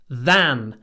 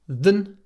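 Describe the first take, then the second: First: The vowel is full and clearly pronounced. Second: The vowel is reduced to a weak schwa. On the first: "И вместо" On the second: "обычно мы говорим"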